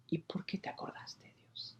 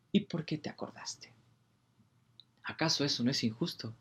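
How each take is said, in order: First: Hushed whisper to God. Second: Near-whisper, a bit more voiced; soft whisper. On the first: Acted. Preacher whispering his wonder at God's mercy, hushed. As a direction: breathe the question, barely voiced. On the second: Preacher repeating the question to God, softly. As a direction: ask again, still hushed. Whisper continues, slightly louder.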